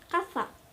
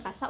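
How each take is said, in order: First: The middle consonant is a th sound. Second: The middle consonant is an s sound. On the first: "Jadi si Z-nya itu ter, e, dibaca th" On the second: "casa untuk berburu dan casa untuk rumah"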